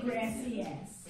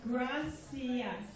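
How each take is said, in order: First: Gracias said Anglicized, like gracious; slow, anglicized gracias; wrong English way. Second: Gracias with every letter sounded, gra-ci-as; slow, careful Spanish gracias; proper Spanish. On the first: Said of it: "do not say gracias". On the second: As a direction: say gracias fully in Spanish, slowly. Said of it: "So this is gracias". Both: Shown as a demonstration.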